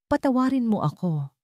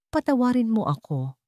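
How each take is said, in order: Both takes have the same delivery.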